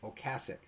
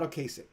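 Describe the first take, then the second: First: The middle syllable sounds like 'cass'. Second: The middle syllable does not sound like 'cass'. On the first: The speaker calls it right. "It's [name]. It's [name]. Think of [name]" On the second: The speaker calls it wrong. "it's not Ocasek"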